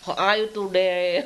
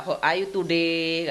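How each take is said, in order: First: Put-on slow, heavily Javanese-accented "How are you today?"; a friend teased for her accent, Javanese English. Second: Slow "How are you today?" in a thick medok accent; showing her own accent, Javanese English. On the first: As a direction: say it in thick Javanese English, slowly. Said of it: "ngomongnya tuh pelat". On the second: Shown as a demonstration. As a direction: lay the Javanese accent on, slowly. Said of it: "aku kan masih medok".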